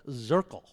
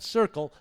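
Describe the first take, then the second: First: The name begins with a Z sound. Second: The name begins with an S sound. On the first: The speaker calls it right. "the town is called Zirkle" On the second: The speaker calls it wrong. "Not Circle"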